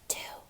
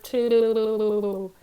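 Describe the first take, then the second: First: It is whispered. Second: It is said in a bubbly underwater voice.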